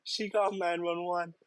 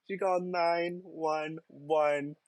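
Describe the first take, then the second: First: Said in the usual way. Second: Drawn-out stunned repeat; slower, higher disbelieving echo. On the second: Shown as a demonstration. Repeating the caller's outrage slowly, in disbelief. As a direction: stretch it out in disbelief.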